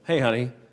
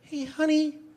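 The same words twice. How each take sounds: First: It is said in a normal voice. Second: It is said in a thin, reedy voice.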